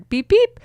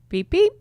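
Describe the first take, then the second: First: The beeps are said loudest of all. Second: The beeps are said fairly softly.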